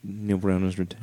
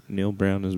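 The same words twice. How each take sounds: First: Soft, held-back announcement; too quiet to hear. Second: Raised-volume announcement; louder. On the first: Host reads news his co-host claims not to hear, quietly. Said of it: "I can't hear you". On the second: Host repeats the news for his co-host, louder. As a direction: push the name out so it is heard. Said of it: "a little bit louder". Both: Pretend.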